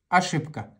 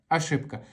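The two takes are said the same way.

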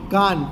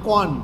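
First: The first vowel is an open 'aa' sound. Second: The first vowel is an open 'o' sound. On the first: This is the standard form. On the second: This is the Charotar dialect form.

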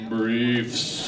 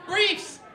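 First: It is said in a low, deep voice. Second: It is said in a light, cheerful voice. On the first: The thing named sounds creepy or unpleasant. "he said it in a deep voice" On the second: The thing named sounds fun and harmless. "They're fun again"

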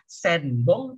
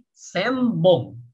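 First: The nasal before b is an n sound. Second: The nasal before b is an m sound. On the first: The speaker calls it wrong. "jangan baca senbong" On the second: The speaker calls it right. "tapi sembong ya, jadi em gitu ya"

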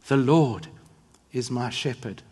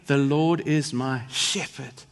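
First: The word Lord is stressed. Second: The word shepherd is stressed.

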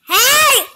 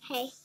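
First: It is said loudly. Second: It is said softly.

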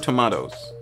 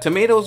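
First: It is said with a New Zealand accent. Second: It is said without a New Zealand accent.

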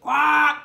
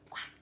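First: It is said loudly. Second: It is whispered.

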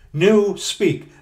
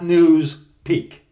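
First: The s sound begins the second part. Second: The s sound ends the first part. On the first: The speaker calls it right. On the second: The speaker calls it wrong. "not news peak"

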